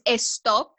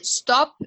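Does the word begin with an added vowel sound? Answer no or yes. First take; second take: yes; no. First: The word starts with an added e vowel. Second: The word starts directly with the s sound. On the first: The speaker calls it wrong. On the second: The speaker calls it right.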